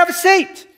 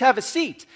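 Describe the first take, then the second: First: It is said in a sharp, stern tone. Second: It is said in a calm, polite tone. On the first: It is an urgent order to sit down. "my kid in the back of the car standing up without a seatbelt" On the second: It is a courteous invitation to sit. "me saying to you tonight"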